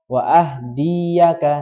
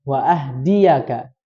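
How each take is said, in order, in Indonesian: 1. Vokal "di" panjang. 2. Vokal "di" pendek. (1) "tadi mohon maaf dibaca panjang" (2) "di-nya itu tidak dibaca panjang"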